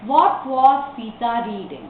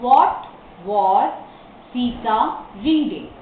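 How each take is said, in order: First: Slow, evenly connected question; model reading. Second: Slow dictation with a pause after each word. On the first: Teacher models a question for the class, slow reading. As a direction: read it slowly as one whole sentence. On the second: Teacher shows how to form the question, word by word. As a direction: separate every word for learners. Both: Shown as a demonstration.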